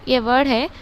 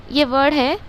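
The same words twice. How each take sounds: The two takes are said the same way.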